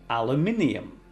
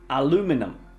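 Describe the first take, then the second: First: It is said in a British accent. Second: It is said in an American accent.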